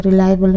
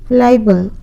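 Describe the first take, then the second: First: रिलायबल said rilaibel with a clear r; correct pronunciation. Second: फिलाइबल read as pelaibel, the wrong spelling; misspelled reading. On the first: Teacher corrects the slide: रिलायबल, said rilaibel. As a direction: fix it to रिलायबल, starting with r. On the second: Teacher reads the typo on the slide as फिलाइबल. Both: Shown as a demonstration. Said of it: "फिलाइबल नहीं, रिलायबल होगा".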